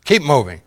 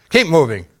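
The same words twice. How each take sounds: First: First rude order. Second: "Keep moving" pushed louder and higher; "Keep" hit harder on the second try; harder rude order. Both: Retold or imitated. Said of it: "become more rude".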